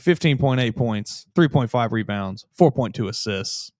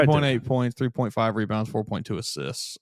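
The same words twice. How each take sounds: First: It is said at a slower pace. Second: It is said at a faster pace.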